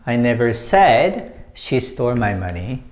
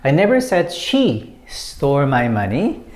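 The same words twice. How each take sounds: First: The stress falls on the word said. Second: The stress falls on the word she. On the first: It was only implied, not put into words. "when you put emphasis on said" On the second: It was not necessarily her who stole it. "When you put emphasis on she"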